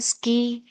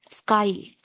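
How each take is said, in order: First: The vowel is a long 'ee' sound. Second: The vowel is an 'eye' diphthong. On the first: The speaker calls it wrong. "The pronunciation is wrong" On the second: The speaker calls it right. "you must pronounce it as sky only"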